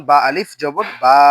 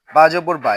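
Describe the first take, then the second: First: Final বা with a long held a; louder, lengthened বা; stretched vowel. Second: Final বা with a short a; no stretch. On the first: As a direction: draw out the last বা. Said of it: "এই জবরে টান হবে". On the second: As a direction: cut the vowel of বা short. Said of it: "এখানে টান হবে না". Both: Shown as a demonstration.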